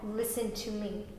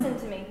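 First: It is said slowly and angrily, words apart. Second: It is said at normal pace, words linked.

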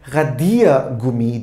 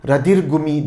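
First: The i sound in the word is long. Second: The i sound in the word is short. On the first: The speaker calls it right. "İ'yi uzatıyorduk" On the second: The speaker calls it wrong. "kalkıp Radiergummi demiyoruz"

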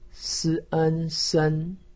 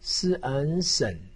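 First: The pitch stays high and level. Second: The pitch dips low, then rises. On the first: "一声" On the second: "三声"

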